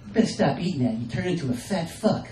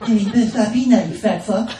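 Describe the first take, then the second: First: A hint of wife nagging. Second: Put-on child repeating mom's insult, louder; mock kid parroting, louder. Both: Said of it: "repeating the things that she says".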